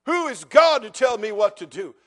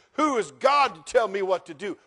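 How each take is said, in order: First: Louder, sneering repeat of Pharaoh's boast; mocking Pharaoh. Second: Proud, scoffing Pharaoh, moderately raised; defiant Pharaoh. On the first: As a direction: ham up the arrogant challenge, punching God. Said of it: "Oh, he'll regret that statement". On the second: Retold or imitated. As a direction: toss the challenge off arrogantly. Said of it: "And Pharaoh says".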